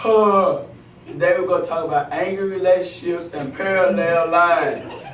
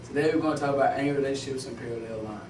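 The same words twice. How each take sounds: First: It is said at a slower pace. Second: It is said at a faster pace.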